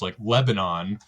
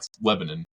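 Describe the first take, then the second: First: The name is said like the country. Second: The name is said the local way. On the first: "like you hear on the news" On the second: "that's how they how they say it"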